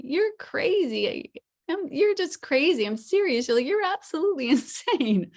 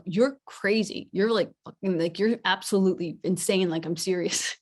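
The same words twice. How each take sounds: First: Emphatic intonation demo. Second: Level, forceful "you're crazy"; contrasting serious intonation. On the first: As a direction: exclaim it high and loud, swooping on the key words. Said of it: "with the intonation, like, you could say". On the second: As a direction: say it in earnest at normal pitch, firmly. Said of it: "same words, but they sound very different". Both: Shown as a demonstration.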